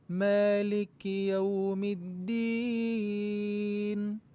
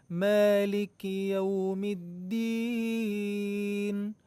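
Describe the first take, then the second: No difference in how they are said.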